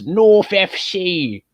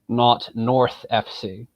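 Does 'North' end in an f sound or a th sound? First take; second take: f sound; th sound. First: North ends with an f sound. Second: North ends with a th sound. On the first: This is how most people in the UK say it. "hardly anyone pronounces the th properly" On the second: This is the traditional careful pronunciation. "It's almost become an Americanism to pronounce the th"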